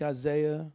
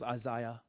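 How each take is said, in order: First: The name has the usual English pronunciation. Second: The name has an African-style pronunciation.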